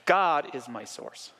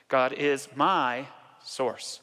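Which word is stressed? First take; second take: God; my. First: The word God carries the emphasis. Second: The word my carries the emphasis.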